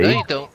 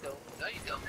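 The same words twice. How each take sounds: First: Said in the usual way. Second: Breathy whisper, no voice. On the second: Acted. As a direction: whisper it mockingly. Repeated line, second whispered.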